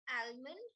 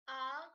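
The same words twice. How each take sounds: First: Almond with the L sounded, al-mond; sounding the L in almond; wrong pronunciation. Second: Almond with a silent L, ah-mond; correct pronunciation. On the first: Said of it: "which is wrong". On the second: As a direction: drop the L in almond. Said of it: "The L in that word is silent". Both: Shown as a demonstration.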